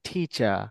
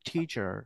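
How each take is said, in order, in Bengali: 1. শেষের R ধ্বনিটি পুরোপুরি বাদ যায়। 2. শেষের R ধ্বনিটি স্পষ্টভাবে উচ্চারিত হয়। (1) "বাট ব্রিটিশে বলে টিচার" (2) "আমেরিকানে বলে হচ্ছে টিচার"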